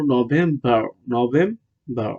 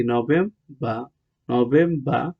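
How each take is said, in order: First: নভেম্বর as "no-vem-barr", final r sounded; American pronunciation. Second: নভেম্বর as "no-vem-bah", final r silent; British pronunciation. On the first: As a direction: pronounce the r ending নভেম্বর. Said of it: "American হলো". (নভেম্বর, র-সহ American উচ্চারণে) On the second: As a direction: drop the r at the end of নভেম্বর. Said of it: "British উচ্চারণ কি?". (নভেম্বর, শেষের র ছাড়া British উচ্চারণে) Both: Shown as a demonstration.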